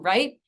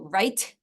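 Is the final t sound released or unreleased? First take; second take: unreleased; released. First: The final t is not audibly released. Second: The final t is audibly released. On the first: "as opposed to" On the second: "T is released frequently at the end of a word"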